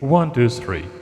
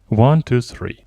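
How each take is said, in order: First: The voice sounds with a noticeable echo. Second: The voice sounds dry, without an echo. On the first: "very different from the others because it has an echo" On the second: "This sound is recorded in original scene"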